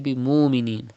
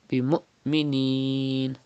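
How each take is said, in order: First: The sounds flow without a sudden stop. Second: There is a sudden stop before the m. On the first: The speaker calls it wrong. "Do not say" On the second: The speaker calls it right.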